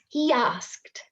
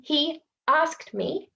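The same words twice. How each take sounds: First: "He asked" as he-yasked; intrusive y. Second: "he asked" with a clean break, no y; separated words. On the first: Teacher demonstrating intrusive y. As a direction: slip a y between he and asked. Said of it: "Secret Y goes in there". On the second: Teacher showing the way it is not said. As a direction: keep he and asked apart. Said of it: "I'm not saying". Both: Shown as a demonstration.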